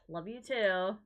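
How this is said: It is said in a cold, unkind way.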